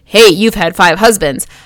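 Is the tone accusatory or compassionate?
accusatory. It sounds harsh and accusing.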